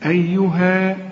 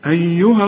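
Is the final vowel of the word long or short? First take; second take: long; short. First: The final vowel is held long at a stop. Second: The final vowel is short, running into the next word. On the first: The reciter stops on this word. "إلا إذا وقفت تقول إيه؟" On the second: The reciter continues into the next word. "وعند الوسط تقول إيه؟"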